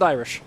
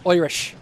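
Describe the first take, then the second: First: Said in the usual way. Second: "Irish" said as "Oirish"; Irish accent. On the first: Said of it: "I've never really learned Irish". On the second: Shown as a demonstration. Streamer who never learned Irish trying the word, "Irish" in a put-on Irish accent. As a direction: stretch the first vowel of "Irish" to "oi", mock Irish. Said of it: "a quite terrible Irish accent".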